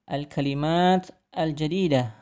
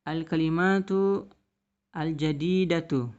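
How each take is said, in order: First: Both words end without a final vowel. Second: Both words end with a pronounced vowel. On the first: This is how it is read aloud. "dibaca menjadi" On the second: This is the full written form. "tulisannya adalah"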